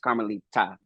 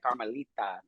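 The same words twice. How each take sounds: First: The name is pronounced in a firm way. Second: The name is pronounced in a soft way. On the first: The speaker calls it right. "but it's Carmelita" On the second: The speaker calls it wrong. "I did like the softy"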